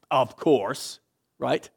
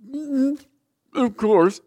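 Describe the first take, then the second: First: Said in the usual way. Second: Loud, higher, knowing mock reply; loud sarcastic "Mm, of course". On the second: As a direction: toss it back with heavy sarcasm. Sarcastic inner reply to excuse.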